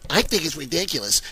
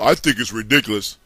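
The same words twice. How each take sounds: First: The voice is lighter, with less bass. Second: The voice is deep, with a lot of bass. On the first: The speaker calls it right. "Let me do him right" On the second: The speaker calls it wrong. "I'm giving him too much bass in his voice"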